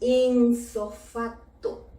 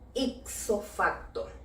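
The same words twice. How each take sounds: First: The first word is said with an n sound. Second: The first word is said with a p sound. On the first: The speaker calls it wrong. "Con N y en una sola palabra" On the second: The speaker calls it right. "Dejémosla tal cual"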